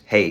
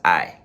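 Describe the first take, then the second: First: The word sounds like English 'hey'. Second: The word sounds like English 'eye'. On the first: The speaker calls it wrong. "we will pronounce it probably in English" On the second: The speaker calls it right. "but it's I"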